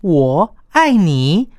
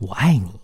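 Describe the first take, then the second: First: It is said with scorn and contempt. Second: It is said tenderly and affectionately.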